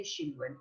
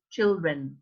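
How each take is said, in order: First: Put-on CHILDREN as "shildren", with "sh"; student's mispronunciation. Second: Put-on CHILDREN with "tch", slower; corrected children. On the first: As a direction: copy the students' soft "sh" in "children". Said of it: "some students say". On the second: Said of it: "this is not correct". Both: Shown as a demonstration.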